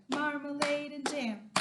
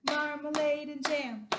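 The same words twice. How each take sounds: Both takes have the same delivery.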